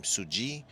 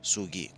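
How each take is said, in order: First: "Suji" said with a J sound; soft-g pronunciation. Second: "Sugi" said with a hard G; hard-g pronunciation. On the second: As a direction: say "Sugi" with the g as in "geese". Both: Shown as a demonstration. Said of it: "I don't know how you pronounce".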